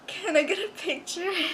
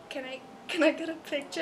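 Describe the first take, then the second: First: It is said a bit louder. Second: It is said very quietly.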